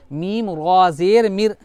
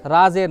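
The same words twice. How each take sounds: First: रा said full and rounded like 'raw', मिर thin; slow spelling-out, fattening रा and thinning मिर; drawn-out chant with a heavy, dark रा; heavy raa, thin mir. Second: रा said thin and light with an open aa; quick, light रा ज़ेर, the faulty reading; wrong letter name. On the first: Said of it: "रा बोलते वक्त तो रा को पुर करेंगे". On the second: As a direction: say रा with a plain, unrounded aa. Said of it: "रा ज़ेर नहीं". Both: Shown as a demonstration.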